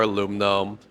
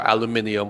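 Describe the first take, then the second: First: It is said with four syllables, American style. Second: It is said with five syllables, British style. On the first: "Americans were the only ones that say aluminum" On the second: "for any U K watchers"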